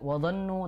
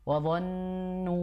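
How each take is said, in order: First: The doubled n is cut short and rushed. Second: The doubled n is held long and nasal. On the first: The speaker calls it wrong. "Bukan wadhannu" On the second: The speaker calls it right. "tapi wadhannu"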